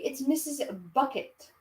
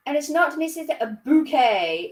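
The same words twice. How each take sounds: First: "Bucket" said BUK-it, softer; plain "Bucket". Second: "Bouquet" said boo-KAY, pitched higher; genteel "Bouquet". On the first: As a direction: drop to an everyday BUK-it for "Bucket". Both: Acted. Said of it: "she pronounced it".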